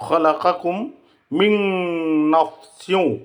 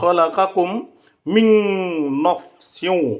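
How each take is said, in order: First: The n merges nasally into the next sound. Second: The n merges nasally into the next sound.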